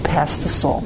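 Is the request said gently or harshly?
gently. It is said softly and politely. This is a calm, restful Sabbath manner of speaking. "A Shabbos"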